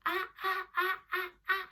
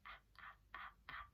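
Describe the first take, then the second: First: High, loud repeated bursts; loud classroom chant; loudly. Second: Tiny whispered sounds; very soft, hushed repetitions; quietly. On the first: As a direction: belt each sound out high. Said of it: "Say it loudly". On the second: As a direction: whisper each one, barely audible. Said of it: "Say it quietly". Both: Shown as a demonstration.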